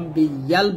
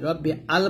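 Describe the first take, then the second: First: The two words join with a 'y' glide. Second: The two words join without a 'y' glide. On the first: The speaker calls it right. "রব্বি ইয়াল বলতে হবে" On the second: The speaker calls it wrong. "রব্বি আল বলা যায় না"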